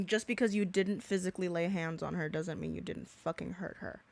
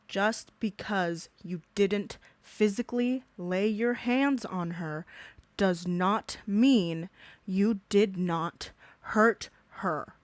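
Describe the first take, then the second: First: Said in the usual way. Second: Spelled out slowly, word by word; slow it right down for the slow ones; deliberate slow repeat to drive the point home; slow emphatic repeat. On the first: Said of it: "I had to repeat that". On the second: Shown as a demonstration. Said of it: "I had to repeat that for the dumbasses".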